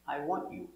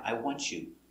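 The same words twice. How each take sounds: First: The t in want is silent. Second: The t and y join into ch. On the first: "It's silent between two consonants" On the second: "some people say with the ch sound"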